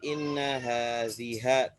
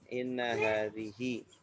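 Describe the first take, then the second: First: The last word ends with an 'a' vowel. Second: The last word ends with an 'i' vowel. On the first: The speaker calls it wrong. "tidak menjadi inna haziha, tidak" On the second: The speaker calls it right. "Tetap hi"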